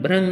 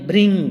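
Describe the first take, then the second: First: The syllable is said as 'bhrang'. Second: The syllable is said as 'bhring'. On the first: The speaker calls it wrong. "भ्रंग नहीं" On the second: The speaker calls it right. "भृंग बोलिए"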